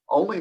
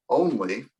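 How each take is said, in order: First: Said in the usual way. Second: ONLY repeated on its own for emphasis; single out the word ONLY; stress on ONLY. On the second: Real, not acted. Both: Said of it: "maybe I should emphasize that word".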